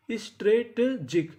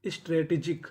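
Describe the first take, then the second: First: Slow, sounded-out "strategic", piece by piece; broken into syllables. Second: Said in the usual way. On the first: Shown as a demonstration. Teacher sounds out a new word for learners, syllable by syllable. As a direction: draw out "strategic" with gaps between the syllables.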